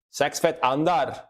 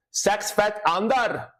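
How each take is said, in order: First: Said in the usual way. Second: High, slow Scottish "Sex fat under" for six feet under; Scottish accent. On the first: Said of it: "Just turn Scottish for a second". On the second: Shown as a demonstration. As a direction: drawl "Sex fat under" as a Scot would. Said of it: "with the Scottish accent".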